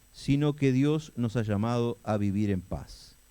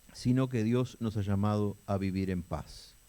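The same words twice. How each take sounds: Both takes have the same delivery.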